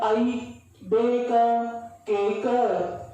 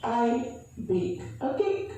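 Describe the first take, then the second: First: The final k is forced with an added vowel. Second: The final k ends cleanly without added vowel. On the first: The speaker calls it wrong. "emphasize or put some force on the ending alphabetic letters" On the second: The speaker calls it right. "Try to be polite"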